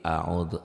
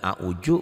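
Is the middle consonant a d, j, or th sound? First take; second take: th; j. First: The middle consonant is a soft th sound. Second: The middle consonant is a j sound. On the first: The speaker calls it right. "tapi a'udu zal" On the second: The speaker calls it wrong. "bukan a'uju"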